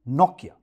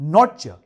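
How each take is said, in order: First: The name is said like 'Nokia'. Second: The name is said like 'Nortcha'. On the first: The speaker calls it right. "बल्कि" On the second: The speaker calls it wrong. "It is not"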